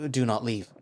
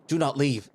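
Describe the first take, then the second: First: Firm but reined-in request; controlled, contained insistence; restrained plea. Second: Loud, higher-pitched plea; frantic, forceful command; sudden outburst. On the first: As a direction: pull back from an outburst and ask it steadily. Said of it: "quickly draws himself back". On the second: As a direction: burst out in alarm to stop them going. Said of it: "taken aback by his outburst". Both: A narrator's reading.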